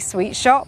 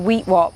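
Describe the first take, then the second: First: Both words start with an S sound. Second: Both words start with a W sound, no S. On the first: "Because he couldn't say sweet shop" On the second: "he used to say, we, can we go to the Wheat Wop?"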